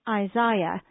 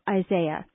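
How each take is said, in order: First: The name is said in a non-American way. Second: The name is said the usual American way. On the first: This is how some other people say it. "Some pronounce this name Isaiah" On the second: This is the usual American way to say it. "the usual American pronunciation of Isaiah"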